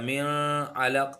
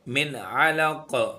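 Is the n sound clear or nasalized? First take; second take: nasalized; clear. First: The n is hidden in a nasal sound. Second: The n is pronounced clearly without nasal hiding. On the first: The speaker calls it wrong. "हम मिन अलक या मिन अलक नहीं करेंगे" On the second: The speaker calls it right. "यहाँ पर इजहार हो रहा है"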